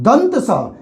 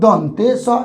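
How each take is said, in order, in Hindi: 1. पहला शब्द अंत में बिना अतिरिक्त स्वर के है। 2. पहले शब्द के अंत में एक अतिरिक्त 'e' स्वर है। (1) "ये शुद्ध हुआ।" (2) "नो, गलत है।"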